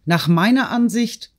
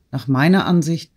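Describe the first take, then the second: First: Much higher indignant exclamation; high-pitched outburst without much added volume; crying out. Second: Said in the usual way. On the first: A narrator's reading. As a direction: cry out in a raised pitch, outraged. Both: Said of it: "schrie Natalie auf".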